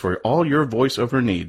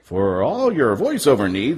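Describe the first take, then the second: First: It is said in his normal voice. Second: It is said in an announcer voice.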